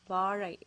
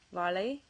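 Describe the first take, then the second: First: The middle consonant is an R-like sound. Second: The middle consonant is a plain L sound. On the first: The speaker calls it right. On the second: The speaker calls it wrong.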